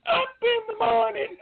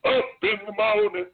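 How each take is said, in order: First: Squeaky falsetto cadence call; mock high-pitched recruit calling cadence. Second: Higher, forceful imitated cadence; imitated running-formation call; drill sergeant cadence call. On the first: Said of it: "I had a real high-pitched voice". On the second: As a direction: call it out like a sergeant leading a run. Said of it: "like that".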